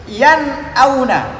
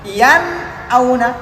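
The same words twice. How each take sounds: The two takes are said the same way.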